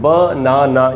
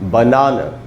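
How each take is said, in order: First: The final vowel is a full, long 'ah'. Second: The final vowel is a short, weak 'uh'. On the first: The speaker calls it wrong. "हम इसको बोलते हैं बनाना, यही हमको बचपन से सिखाया गया है" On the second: The speaker calls it right. "एंड में जो ए है उसका उच्चारण आ नहीं होगा, आधा अ होगा"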